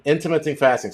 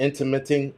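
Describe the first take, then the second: First: Said in the usual way. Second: Intermitting said with -ing in place of -ent; mispronounced. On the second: Shown as a demonstration. Host corrects himself for Jersey Prepper, saying intermitting. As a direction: slip into intermitting before correcting. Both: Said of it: "Sorry, Jersey Prepper".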